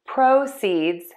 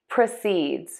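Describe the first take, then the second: First: The stress is on the first syllable. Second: The stress is on the second syllable. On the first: It is the noun, meaning money gained. "Let's start with the noun, stressing syllable number one" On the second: It is the verb, meaning to go on. "And now for the verb"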